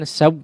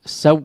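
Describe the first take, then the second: First: The voice stops dead right after the w. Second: The voice stops dead right after the w.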